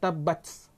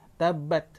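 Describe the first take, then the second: First: The final t is released with a strong hiss. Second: The final t stops with only a slight breath. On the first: The speaker calls it wrong. "Dia bukannya tabats" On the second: The speaker calls it right. "Dia tabat"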